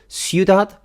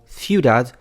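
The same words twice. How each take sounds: First: The word begins with an s sound. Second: The word begins with a th sound. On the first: "with an S sound" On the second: "with a th th sound"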